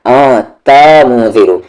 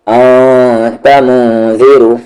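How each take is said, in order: First: आ, त, मु, ज़ीरो with each syllable chopped apart, ता cut off from मु; wrong split syllables. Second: आ, त, मु, ज़ीरो read smoothly as one flowing unit; joined flowing reading. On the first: Teacher shows students the wrong way, choppy syllables. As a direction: break the word into separate beats, the wrong way. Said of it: "ता को अलग नहीं करना है". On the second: Teacher models the correct flowing recitation. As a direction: keep the flow, one breath for the box. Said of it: "एक box को एक बार में पढ़ेंगे ताकि फ्लो बरकरार रहे". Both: Shown as a demonstration.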